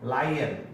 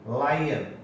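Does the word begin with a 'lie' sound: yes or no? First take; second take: yes; yes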